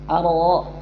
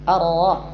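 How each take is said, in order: No difference in how they are said.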